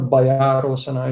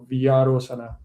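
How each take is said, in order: First: The first syllable sounds like English 'by'. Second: The first syllable is pronounced 'vya'. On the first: The speaker calls it wrong. "it's not Bayarosana" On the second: The speaker calls it right. "it's Vyarosana"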